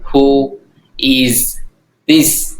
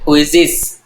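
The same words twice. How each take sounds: First: Each word set apart, rising on this. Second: Said in the usual way. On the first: Shown as a demonstration. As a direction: drill it slowly word by word. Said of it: "Bạn thích ai?". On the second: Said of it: "nhắc lại".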